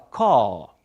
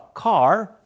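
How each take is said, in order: First: It is said in a British accent. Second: It is said in an American accent. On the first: "o britânico fala car" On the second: "o americano fala car"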